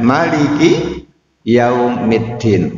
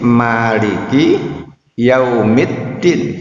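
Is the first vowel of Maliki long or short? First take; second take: short; long. First: The first vowel of Maliki is kept short. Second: The first vowel of Maliki is held long. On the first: God is the king of the Day of Judgment. "boleh pula dibaca pendek" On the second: God is the owner of the Day of Judgment. "Itu kalau dipanjang, dibaca panjang"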